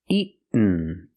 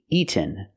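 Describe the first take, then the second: First: The middle sound is a stopped, unreleased T. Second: The middle sound is a clear released T. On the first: "Or I can make a stop T" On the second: "We have to make a real T"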